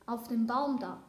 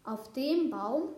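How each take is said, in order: First: "Baum" stressed, tune falling at the end; a simple statement landing on "Baum"; matter-of-fact answer. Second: Slow, louder question with stress on "dem"; incredulous echo. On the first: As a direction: point it out with weight on "Baum". Plain answer before the echoed question. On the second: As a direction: lean hard on "dem" and rise at the end. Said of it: "sagte die Krähe". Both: A narrator's reading.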